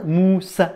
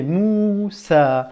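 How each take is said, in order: First: Moussa with the final a cut short; A non prolongé. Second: Moussa drawn out slowly, the final a held long; A prolongé. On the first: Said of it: "Tu t'es pas arrêté à A". (Moussa avec un A bref, arrêté net) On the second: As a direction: hold the vowels of Moussa, especially the last a. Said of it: "T'as prolongé le A". (Moussa avec le A prolongé) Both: Shown as a demonstration.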